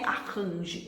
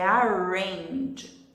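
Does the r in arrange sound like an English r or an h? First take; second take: h; English r. First: The r sounds like a breathy h. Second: The r is a smooth English r. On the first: The speaker calls it wrong. "não é arrange" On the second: The speaker calls it right. "é arrange"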